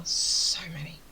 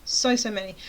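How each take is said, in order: First: Breathy whisper with a long "So"; hushed, stretched "So many"; whispered emphasis. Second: Said in the usual way. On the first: Real, not acted. Whispered emphasis, then repeated voiced.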